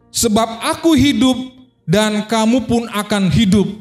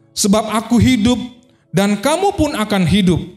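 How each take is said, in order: Both takes have the same delivery.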